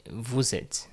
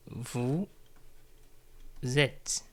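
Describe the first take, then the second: First: Said in the usual way. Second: "Vous", a long pause, then "êtes"; word by word. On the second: Shown as a demonstration. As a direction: split "Vous êtes" into two separate words for learners. Teacher repeats phrase word by word.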